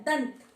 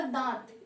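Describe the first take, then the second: First: दंत with a firm, pressed न before त; anusvara said with force. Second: दांत with a light nasal vowel and no pressed न; soft nasalised vowel. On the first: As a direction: press hard on the nasal in दंत. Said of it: "इसे बोलने में हमें काफी pressure देना पड़ा है". (दंत को ज़ोर देकर, अनुस्वार के साथ) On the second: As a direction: breathe दांत gently through nose and mouth. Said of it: "इसे बोलने में हमें ज्यादा प्रेशर नहीं देना पड़ा". (दांत को हल्के से, नाक और मुंह से) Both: Shown as a demonstration.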